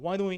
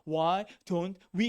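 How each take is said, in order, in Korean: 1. 단어들이 빠르게 이어지고, 'don't'는 삼켜져요. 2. 각 단어를 다 또렷하게 발음해요. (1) "이건 거의 발음 이렇게 해요. Why don't we 이렇게 발음" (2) "why don't we 이렇게 안 한다"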